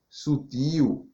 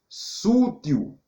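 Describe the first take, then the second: First: The stress is on the second syllable. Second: The stress is on the first syllable. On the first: The speaker calls it right. "ao invés de sutil" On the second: The speaker calls it wrong. "Sútil, ao invés de sutil"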